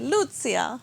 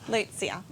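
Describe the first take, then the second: First: It is said the Italian way. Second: It is said the Australian way.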